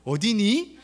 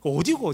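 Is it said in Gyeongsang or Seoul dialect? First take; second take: Seoul; Gyeongsang. First: It is said in Seoul standard speech. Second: It is said in Daegu Gyeongsang dialect.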